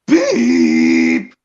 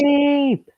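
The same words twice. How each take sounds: First: A deep, loud booming beep; Brandon's loud beep. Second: A high, half-hearted little beep; Angelus's weak beep. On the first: Kid imitating the narrator, loud low beep. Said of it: "for Brandon goes". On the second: Friend mimics the lazy narrator, high weak beep. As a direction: squeak it out without trying. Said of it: "But for Angelus". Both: Retold or imitated.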